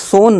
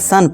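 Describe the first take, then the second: First: The vowel is a rounded o sound. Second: The vowel is a short uh sound. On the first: The speaker calls it wrong. "इसे सोन नहीं" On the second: The speaker calls it right. "इसे सन पढ़ेंगे"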